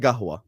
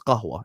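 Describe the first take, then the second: First: It is said the Jordanian way, with a g. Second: It is said the Standard Arabic way, with q.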